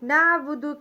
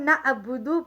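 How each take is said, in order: First: The middle consonant is a tight throat squeeze. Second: The middle consonant is a plain glottal stop. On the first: The speaker calls it right. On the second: The speaker calls it wrong.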